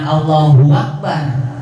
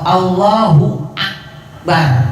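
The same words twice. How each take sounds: First: Akbar begins with a w sound. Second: Akbar begins with a clear glottal stop. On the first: The speaker calls it wrong. "jangan; mengganti hamzah akbar jadi waw" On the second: The speaker calls it right. "Harus apa"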